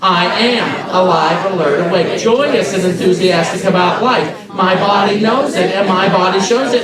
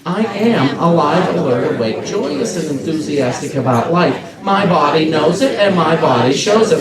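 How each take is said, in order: First: It is said with raised, livelier energy. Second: It is said with calm, moderate energy.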